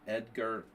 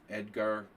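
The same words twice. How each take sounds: The two takes are said the same way.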